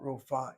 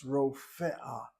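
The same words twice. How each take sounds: First: "rofa" as two syllables, ro-fa; mispronounced rofa. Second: "rofea" slowly in three syllables, ro-fe-a; correct rofe'a. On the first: Teacher showing students what the word is not, mispronounced. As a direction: say "rofa" without the separate e before the final a. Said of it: "The word is not rofa". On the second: Teacher correcting a mispronounced Hebrew word, careful pronunciation. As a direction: give "rofea" a separate e before the final a. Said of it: "it's rofea". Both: Shown as a demonstration.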